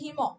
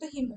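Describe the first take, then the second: First: The word ends with an added final vowel. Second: The word ends on the final consonant. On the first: This is the formal pronunciation. "তুমি যদি formally উচ্চারণ করো তাহলে এটা হিম" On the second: This is the habitual everyday pronunciation. "অভ্যাসবশত হিম উচ্চারণ করছি"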